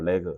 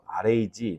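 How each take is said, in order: First: It is said as one word, vowel like 'e'. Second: It is said as three separate letter names. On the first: "저는 레그라고 하고 싶어요" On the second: "세 가지 발음으로 쓰이는데"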